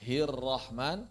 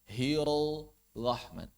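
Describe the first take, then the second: First: Slow "Hirrahman" with a joined trilled RR; correct double R. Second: Drawn-out "Hirrahman" as "hirol-ahman"; wrong released R. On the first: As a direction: keep the tongue on the R in "Hirrahman". ("Hirrahman" benar, R bertasydid rapat) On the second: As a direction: let the tongue go early in "Hirrahman". ("Hirrahman" keliru, R dilepas dulu) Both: Shown as a demonstration. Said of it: "bukan Hirrahman".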